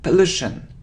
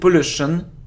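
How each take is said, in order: First: The first vowel is a weak 'uh' sound. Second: The first vowel is a full 'or' sound. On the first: The speaker calls it right. "It's a weak sound of a" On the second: The speaker calls it wrong. "It isn't or"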